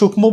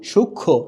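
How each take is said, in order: First: The m sound is pronounced clearly. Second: The m is silent, leaving only nasalization. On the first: The speaker calls it wrong. "ওরকম করে এটা কি সূক্ষ্ম বলবো" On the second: The speaker calls it right. "ময়ের উচ্চারণ কিন্তু হচ্ছে না"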